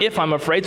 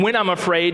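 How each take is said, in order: First: "if" lifted with a light rise, as the wrong version; stress on if. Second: "When" leaned on to set it against "if"; stress on when. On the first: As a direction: mark "if" as the rejected word, rising. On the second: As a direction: hit the word "When" firmly, then let "I'm afraid" fall away. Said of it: "Notice he opens up saying". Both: Shown as a demonstration.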